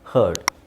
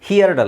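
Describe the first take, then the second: First: The vowel sounds like 'hurt' before the d. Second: The vowel sounds like 'here' before the d. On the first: The speaker calls it right. "ಹರ್ಡ್ ಅಂತ ಹೇಳಬೇಕು" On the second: The speaker calls it wrong. "ಹಿಯರ್ಡ್ ಅಲ್ಲ"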